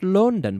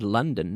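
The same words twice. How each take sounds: First: The first vowel sounds like an 'o'. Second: The first vowel sounds like 'uh' in funny. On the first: The speaker calls it wrong. "not London" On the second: The speaker calls it right. "has the same sound"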